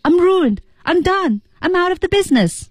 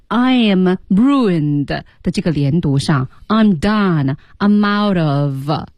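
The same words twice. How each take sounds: First: High-pitched acted despair; emotional outburst. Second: "I am ruined" slow and drawn out; linked reading demo. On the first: Teacher showing students the emotion behind the lines, high acted despair. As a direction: let the feeling drive it, pitch raised throughout. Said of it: "是一个什么情绪下出来的". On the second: Teacher warning against focusing only on liaison, slow "I am ruined". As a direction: spell out "I am ruined" slowly, word into word. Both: Shown as a demonstration.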